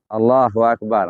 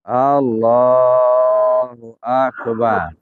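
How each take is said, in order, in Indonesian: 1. Diucapkan terburu-buru, tidak tenang. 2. Diucapkan dengan tenang. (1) "jangan Allahu Akbar, enggak siap" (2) "udah siap dulu"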